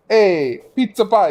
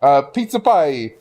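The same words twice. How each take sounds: First: Loud high hammy Italian "pizza pie". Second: Slow hammed-up Italian "pizza pie"; exaggerated Italian accent. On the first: Retold or imitated. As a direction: belt it like a cartoon Italian. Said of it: "You want me to be racist?". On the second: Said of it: "You want me to be racist? Sure".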